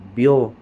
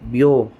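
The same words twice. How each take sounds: The two takes are said the same way.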